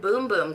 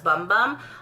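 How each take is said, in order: First: The vowel sounds like the oo in boom. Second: The vowel sounds like the u in bum. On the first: The speaker calls it right. "A lot of people mispronounce this" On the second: The speaker calls it wrong. "I always thought it was"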